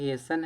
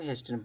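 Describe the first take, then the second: First: The t sound is left out in the middle. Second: The t sound is pronounced in the middle. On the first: The speaker calls it right. "जबकि ये भी हेसन है" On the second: The speaker calls it wrong. "इसको लोग हेस्टन पढ़ देते हैं"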